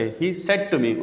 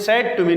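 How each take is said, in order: First: Said as quick "sed"; short e in said; shortened said. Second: Said with drawn-out vowel; long "sayd" for said; mispronounced said. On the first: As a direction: keep the vowel of said brief. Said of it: "مختصر کر کے". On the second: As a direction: stretch the vowel of said. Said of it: "said to me نہیں کہنا". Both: Shown as a demonstration.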